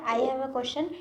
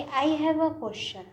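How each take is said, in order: First: Said in the usual way. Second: I have a question said slowly and clearly; teacher modelling the correct sentence; slow model answer. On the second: Shown as a demonstration. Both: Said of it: "सही क्या".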